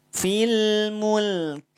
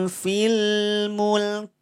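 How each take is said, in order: The two takes are said the same way.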